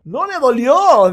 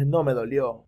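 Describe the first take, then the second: First: Loud, high, slow insistence; mock outraged restatement, slowed down; emphatic repeat. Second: Said in the usual way. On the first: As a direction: hammer home that it didn't hurt. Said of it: "hacía falta ratificarlo". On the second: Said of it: "el dragón dice".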